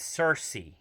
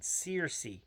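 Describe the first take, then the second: First: The first part does not sound like 'Sears'. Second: The first part sounds like the word 'Sears'. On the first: The speaker calls it right. "But no, it's Cersei" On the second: The speaker calls it wrong. "It's spelled like Sears, but with a C at the end"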